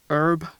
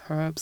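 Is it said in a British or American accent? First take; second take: American; British. First: It is said in an American accent. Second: It is said in a British accent.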